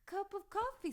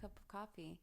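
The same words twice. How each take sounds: First: It is said in a put-on foreign accent. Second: It is said in her ordinary accent. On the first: "In my head, it comes out as" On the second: "telling you"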